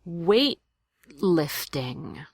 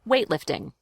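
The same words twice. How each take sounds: First: The word is said slowly and carefully. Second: The word is said quickly at conversational speed. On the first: "I'll do it slowly so you can imitate the glottal stop" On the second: "Now speed it up"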